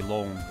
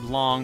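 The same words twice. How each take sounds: First: The vowel is a long o sound. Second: The vowel is the English aw sound. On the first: The speaker calls it right. "pronounced with a long O" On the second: The speaker calls it wrong. "not like the English word long"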